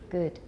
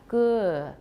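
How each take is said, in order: First: British accent, vowel ends cleanly without schwa. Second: American accent, vowel trails off into a schwa. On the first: "In British" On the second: "So for American English"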